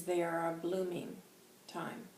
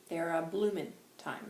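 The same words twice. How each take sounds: First: Said in the usual way. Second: "bloomin'" ending in a plain n sound; quoted phrasing with "bloomin'" for blooming; dropped g in bloomin'. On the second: Retold or imitated. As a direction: say "bloomin'" without the final g. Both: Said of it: "is how he says it".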